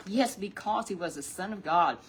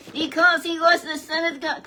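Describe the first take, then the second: First: Said in the usual way. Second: High, loud puppet declaring it. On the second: Acted. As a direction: let the puppet shout the answer.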